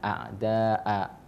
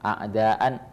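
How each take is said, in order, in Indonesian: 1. Kata ini diakhiri dengan vokal panjang. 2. Kata ini diakhiri dengan bunyi n.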